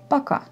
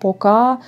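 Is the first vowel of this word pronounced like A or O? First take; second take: A; O. First: The first vowel sounds like an A. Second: The first vowel sounds like an O. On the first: This is the ordinary way most speakers say it. The speaker calls it right. "normalement, on dit" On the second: The speaker sounds foreign or from a particular region. The speaker calls it wrong. "les gens en Russie vont comprendre que vous êtes étrangère ou vous êtes euh, de Kostroma"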